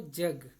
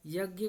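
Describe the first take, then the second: First: The word begins with a j sound. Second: The word begins with a y sound. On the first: This is the Khortha dialect form. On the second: This is the standard Hindi form.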